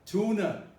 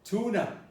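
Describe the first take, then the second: The two takes are said the same way.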